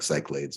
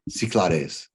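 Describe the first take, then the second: First: The name is pronounced the way it is spelled. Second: The name is pronounced differently from its spelling. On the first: The speaker calls it wrong. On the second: The speaker calls it right.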